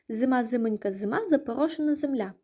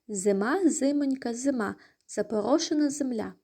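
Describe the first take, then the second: First: The phrase is said at the fastest pace. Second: The phrase is said at a slow pace.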